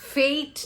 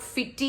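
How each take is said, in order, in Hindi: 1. इसमें एक अक्षर है, जिसमें लंबा 'ay' स्वर है। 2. इसमें दो अक्षर हैं, और यह 'ee' ध्वनि पर खत्म होता है। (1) "We pronounce this as fate" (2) "not fitty"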